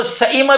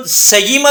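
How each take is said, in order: First: سئیمہ with a distinct glottal stop before the i; full hamza. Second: سیمہ with a clear y in place of hamza; wrong full ya. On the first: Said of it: "اور سئیمہ بھی نہیں کریں گے". (مکمل ہمزہ کے ساتھ سئیمہ) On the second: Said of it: "اس کو سیمہ بھی نہیں کہہ سکتے". (ہمزہ کی جگہ مکمل یا سے سیمہ) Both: Shown as a demonstration.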